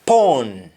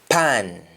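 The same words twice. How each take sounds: First: "Pawn" with rounded aw; English aw form. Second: "pan" said PAAN; "pan" with long open ah; Jamaican ah form. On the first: Teacher giving the English word, "Pawn" as pawn. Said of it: "Instead of A W". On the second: Teacher answering in Jamaican, "pan" as paan. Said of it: "we say double A H". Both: Shown as a demonstration.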